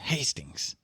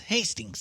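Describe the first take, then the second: First: The voice is heavily raspy. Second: The voice is only lightly raspy. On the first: The speaker calls it wrong. "it's not that raspy" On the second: The speaker calls it right. "close enough"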